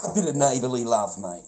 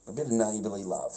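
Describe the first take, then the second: First: Giggly neighbourly love; laughing delight. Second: Said in the usual way. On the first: Real, not acted. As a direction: toss it out gleefully through a laugh. Amused, repeats phrase.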